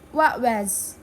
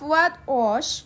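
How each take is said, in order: First: The t at the end of what is dropped. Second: The t at the end of what is pronounced. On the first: "they remove the T and say what was" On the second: "instead of"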